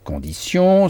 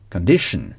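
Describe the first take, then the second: First: The ending sounds like 'see-on'. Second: The ending sounds like unstressed 'shn'. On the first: "se prononcent sion" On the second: "sion se prononce toujours shn. Sans accentuer la fin des mots en anglais"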